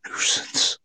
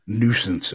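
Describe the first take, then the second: First: Breathy, unvoiced whisper of "Nuisance"; imitating a spirit's whisper on the recording; ghostly whisper. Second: Said in the usual way. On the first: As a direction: whisper "Nuisance" like a faint disembodied voice. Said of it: "It was like". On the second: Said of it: "I heard this voice".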